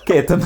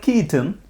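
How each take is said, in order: First: The name is said the Indian way, with Indian sounds. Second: The name is said the English way, like Keaton. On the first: This is the name's proper form. The speaker calls it right. "No kitten. Ketan" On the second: This is how outsiders mangle the name. The speaker calls it wrong. "they go like Keaton"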